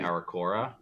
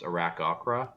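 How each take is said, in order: First: The name is said without a second k sound. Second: The name is said with a second k sound. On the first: The speaker calls it wrong. "I always mispronounce it. I say Arakora" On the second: The speaker calls it right. "There's like a second C, so it's Arakokra"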